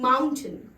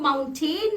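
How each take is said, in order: First: The last syllable is short and reduced. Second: The last syllable is a full 'tain'. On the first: The speaker calls it right. "वो होता है माउंटेन" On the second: The speaker calls it wrong. "क्योंकि उसकी spelling में T A I N है, लेकिन वो माउंटेन नहीं होता है"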